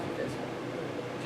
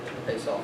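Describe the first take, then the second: First: Slow, whispered repeat; hushed slow afterthought; whispered echo. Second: Said in the usual way. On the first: Acted. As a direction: breathe it out slowly as an echo. Repeating the closing line.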